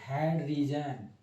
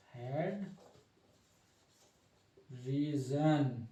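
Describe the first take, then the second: First: Said in the usual way. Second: head, long pause, then drawn-out reason; slow dictation. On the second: Real, not acted. Teacher writing the head label for students, slow dictation. Spells out term while writing.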